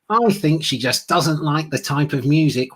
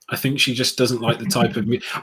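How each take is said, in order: First: It is said in a nasal, high-pitched put-on voice. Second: It is said in the speaker's natural voice.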